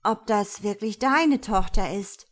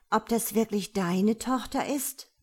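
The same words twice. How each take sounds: First: Louder echo with stress on 'deine'; chiming in. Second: Doubtful, drawn-out question rising at the end. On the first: Raffaela joins in doubting 'deine' Tochter, chiming in louder. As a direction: chime in, leaning hard on 'deine'. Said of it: "Raffaela fällt ein". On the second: Gabriela casts doubt on God's daughter, drawn out. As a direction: stretch it out with mild doubt. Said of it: "sagt Gabriela gedehnt". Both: A narrator's reading.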